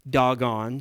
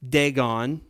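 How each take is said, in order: First: It sounds just like the word 'doggone'. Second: It is said the usual English way. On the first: The speaker calls it right. "in Hebrew it's actually pronounced doggone" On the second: The speaker calls it wrong. "as some pronounce it"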